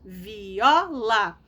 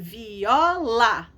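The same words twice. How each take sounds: The two takes are said the same way.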